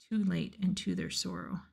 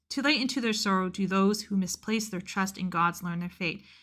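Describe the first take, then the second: First: There is a pause after 'too late'. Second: It flows on without a pause after 'too late'.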